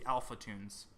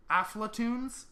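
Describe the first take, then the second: First: "Alphatoons" with the l before the f; corrected name. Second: "Aflatoons" with the f before the l; misread name. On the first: Host correcting a subscriber's name, Alpha at the start of Alphatoons. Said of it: "I think it's supposed to be". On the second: Host misreading a subscriber's name, AF-la in Aflatoons. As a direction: say "Aflatoons" as AF-la-toons, higher. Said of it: "I think it's supposed to be Alphatoons". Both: Real, not acted.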